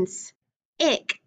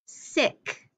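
First: "s-, ick" with the s held apart, a pause, then ick; onset split off. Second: Said in the usual way. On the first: Shown as a demonstration. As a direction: break "s-, ick" after its first sound. Teacher splits word for vowel change.

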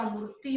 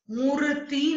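First: Said in the usual way. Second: मूर्ति with a long "tee"; wrong long ending. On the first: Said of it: "होता है". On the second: Shown as a demonstration. Teacher correcting a mistake, मूर्ति with long tee. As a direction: stretch the final vowel of मूर्ति. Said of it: "नहीं होता".

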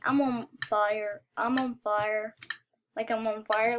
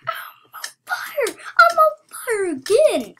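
First: Low-pitched, level repeat; settled-down boast. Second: Loud, high-pitched crowing; excited boasting. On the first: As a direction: drop it low after the excitement. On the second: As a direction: shriek it in wild excitement. Boasting of winning streak. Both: Real, not acted.

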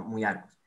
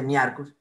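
First: "muy arcus" with U-I sounded as ui; lower, "muy arcus" starting on a ui glide; correct "muy arcus". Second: "mi arcus", first vowel a lone I; wrong "mi arcus". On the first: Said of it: "que suena ui". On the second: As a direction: say "mi arcus" with the U dropped, just mi. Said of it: "No se dice mi arcus". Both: Shown as a demonstration.

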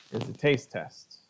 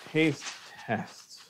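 First: Said in the usual way. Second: Hushed whisper of taste test. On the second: Shown as a demonstration. Whispering the taste test to the viewers. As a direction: breathe the words like a secret. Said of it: "all that's left now is the taste test".

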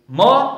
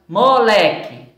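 First: "moleque" as mo, le, que with pauses; split into syllables. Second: Said in the usual way. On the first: Shown as a demonstration. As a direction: dictate "moleque" one syllable at a time. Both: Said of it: "Três sílabas".

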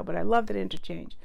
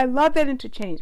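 First: Said in the usual way. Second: Excited gush. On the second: Real, not acted.

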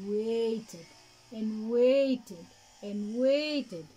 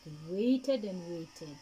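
First: Slow, stretched repetition of waited; drawn-out waiting. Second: Said in the usual way. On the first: A narrator's reading. Narrator stretching the long wait. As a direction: let each waited drag longer.

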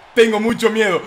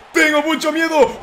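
First: Said in the usual way. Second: Higher, laughing half-shout of fake fear; laughing mock fear. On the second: Real, not acted. Gamer hamming up his fear to viewers, laughing yell. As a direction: crack up while yelling how scared you are. Gamer fears losing the match.

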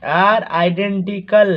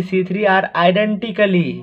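First: "identical" said slowly as the right word, no -ly; correct form identical. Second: "identically" said as the wrong word ending in -ly; the mistaken "identically" with the -ly ending; wrong form identically. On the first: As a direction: dictate "identical" slowly and clearly, no -ly ending. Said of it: "identical बोलो". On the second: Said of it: "आइडेंटिकली मत बोलो". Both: Shown as a demonstration.

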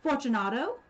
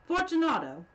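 First: Loud, rising call into the dark. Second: Much louder, higher, falling call; calling again. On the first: Montresor calls aloud into the niche, louder, questioning. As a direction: call out, testing for an answer. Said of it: "I called aloud". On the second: Montresor calls again into the niche, much louder and impatient. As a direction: shout the name into the silence. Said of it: "I called again". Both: Acted.

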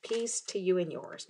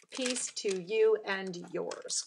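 First: Said in the usual way. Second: Drawn out word by word; slow, measured. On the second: Real, not acted. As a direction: say it slowly, as if placing each word. Spelling out the chosen card phrase.

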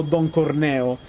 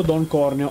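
First: "Corneo" stressed as cor-NÈ-o; stress on second syllable. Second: "Corneo" stressed as CÒR-ne-o; stress on first syllable. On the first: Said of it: "diatriba sul fatto del pronunciare". ("Corneo" con accento sulla seconda sillaba, cor-NÈ-o) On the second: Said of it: "Corneo e non Corneo". ("Corneo" con accento sulla prima sillaba, CÒR-neo) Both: Shown as a demonstration.

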